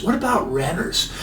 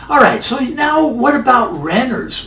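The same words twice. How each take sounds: First: Quiet echo. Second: Said in the usual way. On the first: Shown as a demonstration. Host repeating his own question, softer and quieter. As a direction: drop to a soft, quiet repeat of What about renters.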